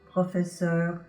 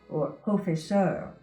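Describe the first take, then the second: First: The vowel is an open French O. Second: The vowel is an English-style O. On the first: The speaker calls it right. "this is the vowel sound that you have in words like" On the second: The speaker calls it wrong. "you might say ... But that's not the way they're pronounced in French"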